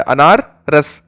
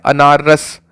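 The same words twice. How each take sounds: First: अनार रस said very slowly, each word held apart; slow, deliberate अनार रस; slow emphatic drill. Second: Said in the usual way. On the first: Shown as a demonstration. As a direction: draw out अनार रस so it sticks. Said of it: "अनार का रस निकालना कैसा होता है?". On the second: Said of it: "अब देखो ये क्या है?".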